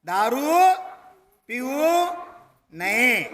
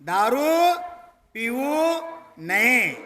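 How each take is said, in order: No difference in how they are said.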